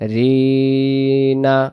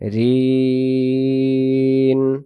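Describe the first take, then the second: First: The syllable ends with an open vowel sound. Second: The syllable ends on the consonant n. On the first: The reading continues without stopping. "এখন রিনা আর হবে না" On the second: The reader stops at this point. "দম ছেড়ে দেব, এখন হবে রিন"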